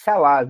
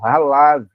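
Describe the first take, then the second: First: The word begins with a sh sound. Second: The word begins with a guttural throat sound. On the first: The speaker calls it wrong. "C H parece Shalav, não é? Mas não é" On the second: The speaker calls it right. "faz o som de R R como em carro"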